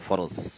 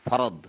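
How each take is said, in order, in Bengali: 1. শব্দটি 'z' ধ্বনি দিয়ে শেষ হয়। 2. শব্দটি 'd' ধ্বনি দিয়ে শেষ হয়। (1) "বলে ফরজ" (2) "ওটা কিন্তু আসলে ফর ফা র দ"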